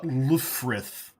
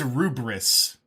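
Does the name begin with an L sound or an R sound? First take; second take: L sound; R sound. First: The name begins with an L and has an F. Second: The name begins with an R and has a B. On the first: The speaker calls it wrong. "not Lufrith" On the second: The speaker calls it right. "So it's Rubris"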